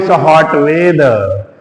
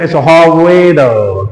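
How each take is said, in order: First: It is spoken in a North Indian English accent. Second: It is spoken in a British English accent. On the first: "हम लोग बोलते हैं" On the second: "वो कहेंगे"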